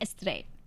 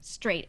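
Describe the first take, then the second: First: An extra vowel sound comes before the S. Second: The word starts directly with the S sound.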